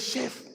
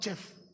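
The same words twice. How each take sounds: First: The word begins with a soft 'sh' sound. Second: The word begins with a hard 'ch' sound. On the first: The speaker calls it right. "It's pronounced as in S H E F" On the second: The speaker calls it wrong. "not chef"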